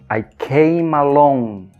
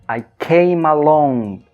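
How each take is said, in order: Both takes have the same delivery.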